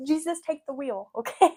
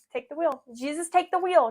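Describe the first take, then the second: First: Light, laughing plea, higher and tossed off; laughing, casual. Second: Higher, louder dramatic plea, big and showy. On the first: Shown as a demonstration. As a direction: say it laughing, like a friendly aside. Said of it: "but, like". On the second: Retold or imitated. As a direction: belt it like the country song. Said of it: "Not like [name] said".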